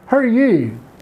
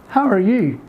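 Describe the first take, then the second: First: The words are squeezed together into two syllables. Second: Each word is said fully and separately.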